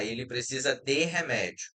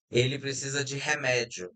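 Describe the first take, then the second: First: "de" said as a full "de" with a clear e; careful pronunciation. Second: Said in the usual way. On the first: Shown as a demonstration. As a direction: pronounce "de" as written, not "dji". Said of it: "falando bem devagar, querendo ser bem claro". ("de" pronunciado com E claro, como se escreve) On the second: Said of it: "a gente vai pronunciar com di".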